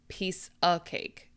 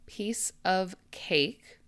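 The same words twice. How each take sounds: First: The phrase is said quickly. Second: The phrase is said slowly and carefully. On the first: "or quickly" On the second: "I'm going to read it very clearly"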